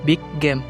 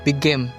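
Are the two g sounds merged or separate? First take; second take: separate; merged. First: Both g sounds are said separately. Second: One long g sound joins the words.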